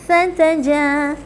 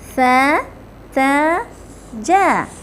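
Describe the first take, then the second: First: The syllables are said quickly, run together. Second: The syllables are said slowly and separately.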